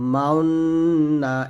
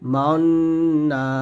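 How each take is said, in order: No difference in how they are said.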